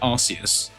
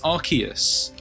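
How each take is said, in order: First: The name contains a sound like 'arse'. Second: The name avoids any sound like 'arse'. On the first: It is read straight from the spelling. "I said Arceus to begin with, because that's how I read it" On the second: It is the form changed for the UK. "it's Arceus, ... so it doesn't sound like arse in the middle of it"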